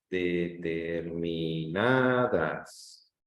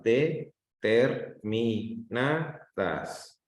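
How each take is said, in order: First: "Determinadas" very slow and connected, lifting on long "na"; stressed syllable drawn out. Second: "determinadas" as de, ter, mi, na, das with pauses; syllable by syllable. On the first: Teacher asking for the strongest syllable, "Determinadas" stretched and stressed on "na". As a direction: hold each syllable low, then swell de-ter-mi-NAAA-das. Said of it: "dónde está la mayor intensidad".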